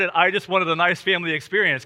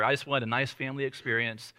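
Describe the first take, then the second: First: "nice family experience" said louder, with emphasis; emphatic repeat. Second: Said in the usual way. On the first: Shown as a demonstration. Pastor repeats the punchline to the laughing crowd, emphatic. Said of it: "She laughed hard".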